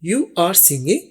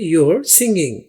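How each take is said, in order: First: You are is said as two separate words. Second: You are is contracted into one syllable.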